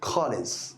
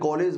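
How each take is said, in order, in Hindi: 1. पहला स्वर o और aa के बीच पड़ता है। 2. पहला स्वर गोल o जैसा लगता है। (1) "इन दोनों के बीच का रास्ता निकालकर" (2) "तो ओ लगा दिया है"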